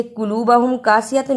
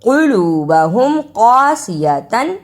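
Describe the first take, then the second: First: "कुलूबहुम कासियतन" with light, thin k for qaf; flattened light क sounds in "कुलूबहुम कासियतन". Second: "कुलूबहुम कासियतन" with full, thick back q; rounded, weighty qaf in "कुलूबहुम कासियतन"; heavy qaf. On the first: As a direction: say "कुलूबहुम कासियतन" quickly with a plain front k. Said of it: "इसे कुलूबहुम कासियतन नहीं पढ़ना". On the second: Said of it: "काफ को मोटा अदा करें". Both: Shown as a demonstration.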